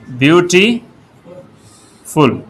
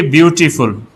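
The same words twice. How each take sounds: First: beautiful stretched slowly syllable by syllable; beautiful spelled out slowly for students. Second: Said in the usual way. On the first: Shown as a demonstration. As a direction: draw out beautiful so each of its three syllables is heard. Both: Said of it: "अब इसमें तीन syllable हैं".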